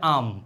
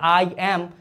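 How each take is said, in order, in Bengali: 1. এটা একটা ছোট, সংকুচিত একক অক্ষর হিসেবে বলা হয়। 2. এটা দুটো আলাদা, পূর্ণ শব্দ হিসেবে বলা হয়। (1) "বলতে হয় আম" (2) "আই এম এভাবে বললে আসলে একটু বিদঘুটে শোনায়"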